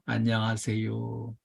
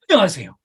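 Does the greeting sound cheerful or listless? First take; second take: listless; cheerful. First: A flat, fading, half-hearted greeting. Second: A bright, warm, energetic greeting. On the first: The greeting is given only because it is required. The speaker calls it wrong. "그냥 안녕하세요, 쳐다도 안 보고 어서 오세요 이러고 있는 거예요" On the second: The greeting sincerely welcomes the customer. The speaker calls it right. "적극적으로 손님하고 눈을 맞추고 웃는 얼굴로"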